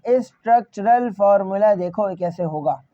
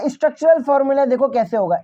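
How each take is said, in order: First: structural formula broken into spaced syllables, lower in pitch. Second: Said in the usual way. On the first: Shown as a demonstration. Teacher repeats the phrase more slowly.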